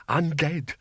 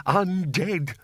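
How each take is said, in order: First: Teasing spooky moan. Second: Teasing spooky moan, pushed further. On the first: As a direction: tease the bursar with a mock ghost call. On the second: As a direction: lean harder into the ghostly tease. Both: Acted. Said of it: "Oh, stop teasing him".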